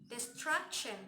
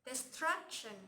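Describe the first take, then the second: The two takes are said the same way.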